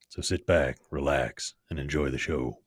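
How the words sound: It is said in a Western cowboy voice.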